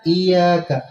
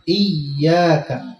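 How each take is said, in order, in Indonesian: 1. Bunyi y tunggal dan ringan. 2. Bunyi y digandakan dan ditekan. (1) "Jangan kita baca" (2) "iya-nya tasydid"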